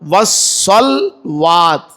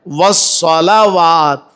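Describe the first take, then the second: First: The L runs straight into the W, no vowel. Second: A short A vowel follows the L before W. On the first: The speaker calls it wrong. "अक्सर लोग पढ़ते हैं वस्सलात या वस्सलवात" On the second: The speaker calls it right. "हालांकि लाम के ऊपर जबर है"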